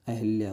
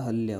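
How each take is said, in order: First: अहिल्या said with an i after ह; teacher voices the mistaken अहिल्या, with हि; wrong form said. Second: अहल्या said with a short a after ह, no i; teacher gives the right अहल्या, with ह plainly; correct form said. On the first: Teacher shows students the wrong अहिल्या, said plainly. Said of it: "शुद्ध वर्तनी जो है". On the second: Teacher corrects students to अहल्या, said plainly. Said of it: "अहल्या होता है". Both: Shown as a demonstration.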